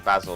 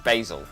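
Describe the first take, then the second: First: Basil is said in a non-American way. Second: Basil is said in an American way. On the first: "I don't say basil like the U S A do" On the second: "Basil is how they say it"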